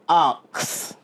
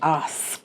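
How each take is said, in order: First: It is said with a Jamaican patois pronunciation. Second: It is said with a standard English pronunciation. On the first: The speaker calls it wrong. "the word is not ox" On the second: The speaker calls it right. "it's ask"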